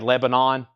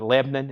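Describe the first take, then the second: First: It is said the Northern US way. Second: It is said the Southern US way, clipped short.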